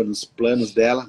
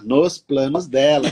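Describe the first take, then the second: First: Said in the usual way. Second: "nos planos dela" slowed and weighted word by word; deliberate, emphatic "nos planos dela"; stress on NOS PLANOS DELA. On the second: Shown as a demonstration. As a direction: lean hard on "nos planos dela", drawing it out. Restates phrase with emphasis.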